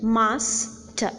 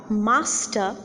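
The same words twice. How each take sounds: First: "master" broken in two, "mas", pause, "ter"; syllable by syllable. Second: Said in the usual way. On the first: Shown as a demonstration. Lecturer showing two syllables in it, "master" said in two separate parts. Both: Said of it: "has got two syllables in it".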